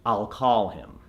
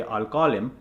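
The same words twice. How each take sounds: First: American accent. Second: Indian accent. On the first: Coach shows what to say, American accent. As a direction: call with a long open "ah". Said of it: "so you want to say". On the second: Coach warns of confusing American listeners, Indian accent. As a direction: call with the unconverted rounded vowel. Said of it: "because otherwise, if you say". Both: Shown as a demonstration.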